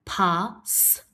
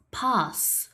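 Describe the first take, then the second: First: "Pass" split into "pa", then a separate "sss"; sounded out. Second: Said in the usual way. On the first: Shown as a demonstration. Teacher asking pupils to listen, Pass split as pa, s. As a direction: pause before the final S of "Pass".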